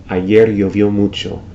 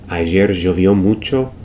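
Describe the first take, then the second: Both takes have the same delivery.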